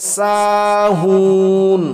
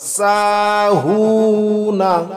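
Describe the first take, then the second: First: The word ends on the 'n' sound. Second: The word ends with a final 'a' vowel. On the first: The reader stops at this word. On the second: The reading continues without stopping.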